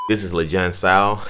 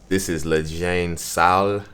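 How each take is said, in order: First: It is said firmly, with confidence. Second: It is said hesitantly, without confidence. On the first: The speaker calls it right. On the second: The speaker calls it wrong.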